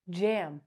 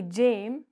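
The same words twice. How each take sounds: First: "jam" with a short open A as in cat; correct short A. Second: "Jame" with a long A, rhyming with game; wrong long A. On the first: Teacher gives the right word after Jame, short A. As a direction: model "jam" lightly with the short vowel. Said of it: "we say". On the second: Teacher repeats the wrong version of jam, long A. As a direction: offer "Jame" as the mistake, letter-name A. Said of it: "We don't say". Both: Shown as a demonstration.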